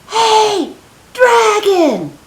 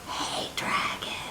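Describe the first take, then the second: First: It is shouted very loudly. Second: It is whispered very softly.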